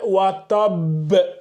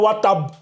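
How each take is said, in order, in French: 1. La finale b est relâchée avec un fort rebond. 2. La finale b est coupée net, sans rebond. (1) "fais aussi la grande qalqala là" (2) "C'est pas watab"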